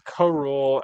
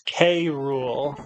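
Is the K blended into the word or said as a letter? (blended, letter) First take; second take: blended; letter. First: The K is blended into one syllable with Rool. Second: The K is said as a separate letter name. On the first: The speaker calls it wrong. "that's not how you say it" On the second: The speaker calls it right. "pronounce it as an initial"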